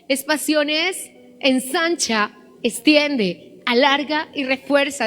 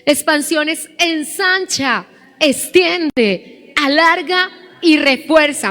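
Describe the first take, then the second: First: It is said at a normal volume. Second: It is said louder than before.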